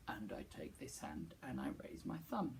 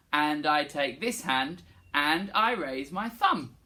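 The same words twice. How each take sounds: First: Low breathy whisper. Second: Slow, clear spoken line. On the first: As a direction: whisper the line back. Whispered echo. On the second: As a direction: say it slowly and plainly. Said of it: "Can you say". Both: Shown as a demonstration.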